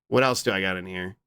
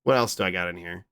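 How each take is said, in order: Both takes have the same delivery.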